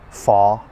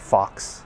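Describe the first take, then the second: First: The final X sound is silent. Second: The final X sound is pronounced.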